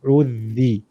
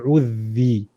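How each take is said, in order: No difference in how they are said.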